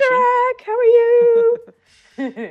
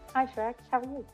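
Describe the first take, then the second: First: The greeting is said louder, with more energy. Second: The greeting is said at normal volume.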